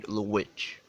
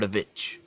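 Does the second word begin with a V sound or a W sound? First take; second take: W; V. First: The word starts with a W sound. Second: The word starts with a V sound. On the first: "not witch" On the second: "The Vitch with a V"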